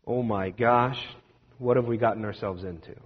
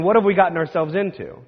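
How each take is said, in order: First: Soft, low, uneasy question; scared wondering. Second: Said in the usual way. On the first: Retold or imitated. Frightened disciples whispering among themselves, soft and uneasy. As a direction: let the worry creep in. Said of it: "now they're starting to wonder". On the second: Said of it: "actively living into the question".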